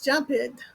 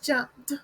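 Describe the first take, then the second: First: The ending is an extra syllable. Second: The ending is a plain t sound. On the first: The speaker calls it wrong. "The incorrect way is jumped" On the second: The speaker calls it right. "The correct pronunciation of jump when adding ed is jumped"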